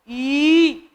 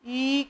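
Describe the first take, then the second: First: The vowel is held twice as long. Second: The vowel is held briefly.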